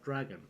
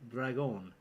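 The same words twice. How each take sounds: First: The name is pronounced with an English sound. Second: The name is pronounced with a French sound. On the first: The speaker calls it wrong. "not Dragon" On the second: The speaker calls it right. "I am reliably informed by Wikipedia it is Dragon ... Because French things"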